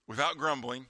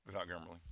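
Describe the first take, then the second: First: "Without grumbling" said firmly at full voice; emphatic repeat. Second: Without grumbling, dropped low and soft; hushed afterthought. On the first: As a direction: land the phrase clearly for emphasis. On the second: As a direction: slip it in very quietly. Drops voice on verse's catch. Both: Real, not acted.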